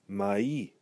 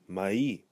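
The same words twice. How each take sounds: The two takes are said the same way.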